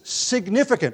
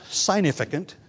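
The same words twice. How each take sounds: First: The G sound is clearly pronounced. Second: The G sound is left silent. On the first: The speaker calls it right. "We pronounce the G in the word when we use it as an adjective" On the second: The speaker calls it wrong. "It is not significant"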